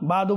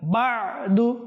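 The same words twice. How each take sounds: First: It is said without the ayn throat sound. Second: It is said with the ayn throat sound. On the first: The speaker calls it wrong. "বাদু বাদু বলবো না" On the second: The speaker calls it right. "বাদু আইন এর দিকেও কি করব লক্ষ্য রাখবো"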